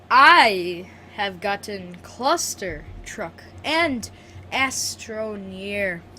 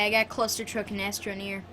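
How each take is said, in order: First: It is said slowly and more clearly. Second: It is said quickly and less clearly.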